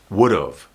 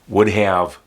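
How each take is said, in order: First: It is contracted, sounding like would of. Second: Both words are said fully and separately.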